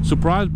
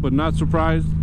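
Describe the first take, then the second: First: "Surprised" said high and bright, with a lift; stress on Surprised. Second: "not surprised" slow and pitched up, leaning on "not"; stress on NOT. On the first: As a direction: throw "Surprised" up high like a mock gasp. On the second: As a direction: drag out "but not surprised" knowingly. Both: Shown as a demonstration.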